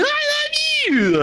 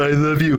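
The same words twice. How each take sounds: First: A much higher, slow, syrupy "love" as he mocks the couple; mock lovey-dovey vow. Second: Said in the usual way. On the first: Mocking the couple at the altar, a high, drawn-out vow. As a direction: sneer at their vows by singing them up high.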